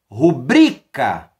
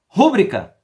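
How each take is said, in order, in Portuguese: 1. A tônica está na segunda sílaba. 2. A tônica está na primeira sílaba. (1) "As palavras paroxítonas" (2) "Não existe a palavra rúbrica"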